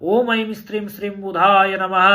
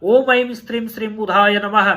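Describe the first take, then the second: Both takes have the same delivery.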